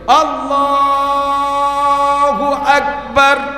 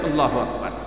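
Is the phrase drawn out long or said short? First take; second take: long; short. First: The phrase is drawn out long. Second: The phrase is said quickly and short.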